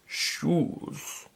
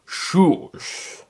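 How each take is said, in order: First: Whispered, barely voiced single word; a barely voiced first word on waking; quiet croak. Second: Same word with more voice behind it; slightly firmer, annoyed repeat; a little louder. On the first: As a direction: rasp it out weakly, just waking. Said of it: "Then the man spoke". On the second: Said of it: "he repeated a little louder". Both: A narrator's reading.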